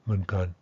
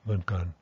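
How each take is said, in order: No difference in how they are said.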